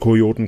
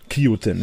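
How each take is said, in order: First: The first syllable sounds like 'ko'. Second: The first syllable sounds like 'ki'. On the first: The speaker calls it right. "Also Kojoten quasi" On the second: The speaker calls it wrong. "ich habe das falsch ausgesprochen"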